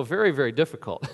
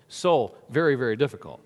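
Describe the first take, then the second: First: "very, very" said with weight; stress on very. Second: "So" pushed up on a rise, "very" falling; "So very" with a lift on "So"; stress on SO. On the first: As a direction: stretch each "very" for effect. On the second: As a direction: lean on "So" then fall away. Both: Shown as a demonstration.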